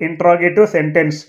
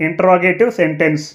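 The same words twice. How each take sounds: Both takes have the same delivery.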